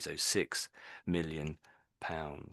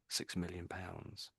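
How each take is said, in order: First: Each word is pronounced separately and distinctly. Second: The words blend together as one unit. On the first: The speaker calls it wrong. "you said each little bit very pretty accurately" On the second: The speaker calls it right. "these words often get all run together like a like a like its own sound almost"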